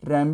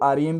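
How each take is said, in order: First: It is one syllable with an open 'a' vowel. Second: It is spelled out as three separate letters. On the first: "रैम भी कह सकते हो" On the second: "आप इसको आरईएम भी कह सकते हो"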